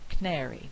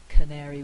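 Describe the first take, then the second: First: The first weak vowel is left out. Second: The first weak vowel is pronounced. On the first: "We've lost the vowel altogether" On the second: "instead of saying"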